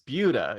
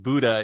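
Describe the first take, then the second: First: The name is said unlike the word Buddha. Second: The name is said like the word Buddha. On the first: The speaker calls it right. "it's Buda" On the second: The speaker calls it wrong. "do not pronounce it Buddha"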